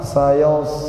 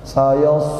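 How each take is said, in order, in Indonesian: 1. Vokalnya ditarik ke belakang, rahang membulat. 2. Vokalnya terlalu ke depan di mulut. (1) "dimundurin lagi Pak" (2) "Kalau kita masih baca sayos, sayos, nah itu kurang"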